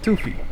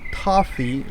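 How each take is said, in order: First: The first vowel sounds like the one in 'too'. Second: The first vowel sounds like the one in 'tough'. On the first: The name is read as if it were Spanish. The speaker calls it wrong. "But I read it in Spanish, so I call it toofy" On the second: This is the intended pronunciation of the name. The speaker calls it right. "It's supposed to be toffee, like uh, t- tough"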